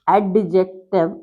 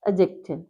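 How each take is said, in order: First: The D sound is clearly pronounced. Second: The D sound is left silent. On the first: The speaker calls it wrong. "So we don't call adjective is wrong" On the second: The speaker calls it right. "It's to be pronounced as adjective"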